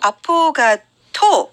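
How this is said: It is said with Korean pronunciation. "우리는 아포카토?"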